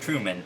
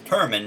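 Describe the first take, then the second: First: The first syllable is said as 'Tru'. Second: The first syllable is said as 'Tur'. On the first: The speaker calls it wrong. "I was pronouncing the last name wrong" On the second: The speaker calls it right. "it's Turman"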